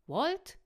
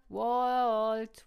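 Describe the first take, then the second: First: Loud call, rising high; questioning call. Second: Very loud, drawn-out call. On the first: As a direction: call out the name, searching for an answer. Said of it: "rief Tucker". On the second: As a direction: stretch the name into a long shout. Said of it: "rief Emma". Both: A narrator's reading.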